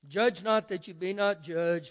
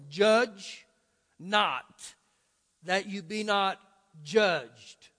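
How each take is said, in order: First: The words are read at a fast pace. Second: The words are read at a slow pace. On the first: "man, you read that fast. I did that intentionally" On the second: "Read it again with me real slow"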